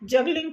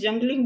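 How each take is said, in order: First: It is said without an n before the g. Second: It is said with an n before the g. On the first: The speaker calls it right. "जगलिंग को" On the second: The speaker calls it wrong. "मैं जंगलिंग बोल देती हूँ"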